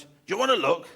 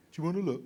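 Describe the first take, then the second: First: Louder teasing offer, leaning on wanna; father-in-law offering the spider, louder teasing; father-in-law taunt. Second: Said in the usual way. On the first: Retold or imitated. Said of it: "and he goes". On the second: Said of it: "That's the kicker phrase".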